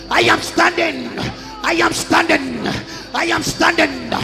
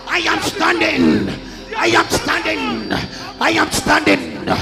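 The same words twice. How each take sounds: The two takes are said the same way.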